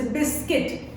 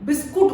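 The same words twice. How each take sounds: First: English-style बिस्किट, ending in a short "kit"; schwa pronunciation. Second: Local-style बिस्कुट, ending in "kut" rather than "kit"; everyday Hindi pronunciation. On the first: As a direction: say बिस्किट as BIS-kit, with a short, weak second vowel. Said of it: "वहाँ पे आता है बिस्किट". (बिस्किट का अंग्रेज़ी उच्चारण, छोटे "किट" के साथ) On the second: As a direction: say बिस्कुट as bis-KOOT, with an "oo" sound. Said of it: "हम लोग बिस्कुट बोलते हैं". (बिस्कुट का देसी उच्चारण, "कुट" के साथ) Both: Shown as a demonstration.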